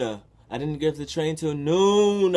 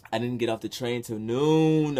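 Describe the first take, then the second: First: Much louder, higher and slower, stretching noon; exasperated repeat, noon stretched long; drawn-out exasperation. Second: Loud, stressing noon; firm statement of the late arrival; emphatic. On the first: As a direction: wail it in disbelief, dragging out noon. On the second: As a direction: lean on the word noon. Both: Real, not acted.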